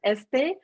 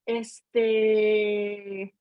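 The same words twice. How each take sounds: First: The word is said short and plain. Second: The word is stretched out and drawn long. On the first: It means this. "means like this" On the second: It is a filler word like um. "they drag it out as they're thinking"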